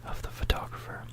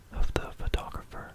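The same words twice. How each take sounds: The two takes are said the same way.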